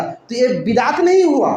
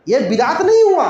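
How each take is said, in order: First: Said in the usual way. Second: नहीं hit hard and louder, falling; emphatic repeat. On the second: Shown as a demonstration. Preacher driving the point home to listeners, stress on नहीं. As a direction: punch the word नहीं on the repeat.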